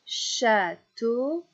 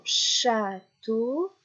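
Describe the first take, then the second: First: Château avec la finale tô appuyée; stress on final syllable. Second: Château dit très lentement, syllabe par syllabe; slow clear château. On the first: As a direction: tape sur la fin de château. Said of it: "j'attrape la dernière syllabe". (accent sur le tô de château) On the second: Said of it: "répéter trois fois la dernière syllabe". (château, très lentement) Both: Shown as a demonstration.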